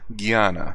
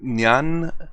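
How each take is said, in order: First: The word begins with a hard G sound. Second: The word begins without a hard G sound. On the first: "I always pronounce it with a G" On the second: "I don't know if I said that right"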